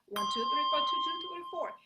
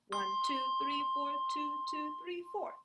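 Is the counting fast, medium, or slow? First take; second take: fast; medium. First: The counting is said at its fastest. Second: The counting is said a little faster.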